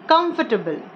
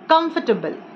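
First: The middle 'for' syllable is dropped. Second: The same.

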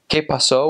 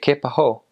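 First: The s in pasó is clearly pronounced. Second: The s in pasó is just breathed out.

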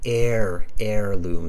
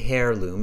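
First: The word begins with no h sound. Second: The word begins with an h sound. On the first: The speaker calls it right. "The H-E-I-R is pronounced as air" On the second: The speaker calls it wrong. "We don't say heirloom"

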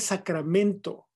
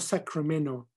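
First: It is pronounced the Spanish way. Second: It is pronounced the English way. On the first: The speaker calls it right. "Se dice" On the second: The speaker calls it wrong.

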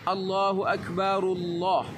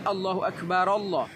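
First: Akbar links into Allah with an 'u' sound. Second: Akbar and Allah are said separately, no 'u'. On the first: The speaker calls it right. "maka huruf Ra-nya berbaris Dhammah" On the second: The speaker calls it wrong. "Jadi bukan"

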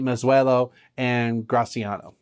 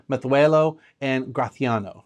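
First: The z and c sound like a plain s. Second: The z and c sound like a lisped th. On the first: This is how most people commonly say it. "most of us say" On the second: This is the traditional local pronunciation. "proper Basque-ish pronunciation ... almost like a lisp"

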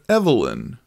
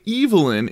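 First: The name is said the American way. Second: The name is said the British way. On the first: "instead of Evelyn" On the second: "in Britain, they say Evelyn"

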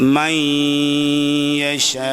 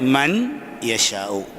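First: The n merges into a nasalized y. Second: The n is said clearly before the y. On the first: The speaker calls it right. "സാക്കിനായ നൂനിനെ യായിൽ ഇദ്ഗാം ചെയ്ത് ഉച്ചരിക്കണം" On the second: The speaker calls it wrong. "പക്ഷേ അറബികൾ അങ്ങനെ വായിക്കൂല"

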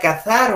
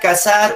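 First: The z is made with tongue between teeth. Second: The z sounds like a plain s. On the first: This is the careful, rarely used way. "esta Z tienes que pronunciarla con los dientes y con la lengua" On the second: This is the everyday casual way. "en nuestro lenguaje coloquial"

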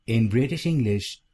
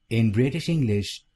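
No difference in how they are said.

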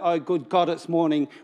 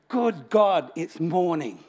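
First: It sounds weary and reluctant. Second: It sounds joyful and eager.

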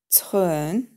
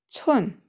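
First: The pitch dips low, then rises. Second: The pitch falls sharply from high. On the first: "третий тон" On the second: "четвертый тон"

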